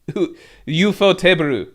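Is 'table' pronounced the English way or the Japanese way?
Japanese. Table is said as Japanese teberu. "the Japanese way"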